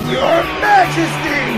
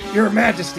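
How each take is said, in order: First: It is said loudly with pride. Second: It is said louder.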